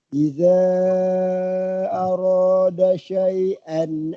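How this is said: It runs on, linked by a final n. "Kalau boleh sambung, kalau nafas panjang"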